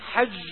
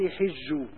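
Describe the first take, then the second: First: The first vowel is a, as in hajj. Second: The first vowel is i, as in hijj. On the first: "والباقون قرأوها بالفتح" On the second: "يعني بكسر الحاء"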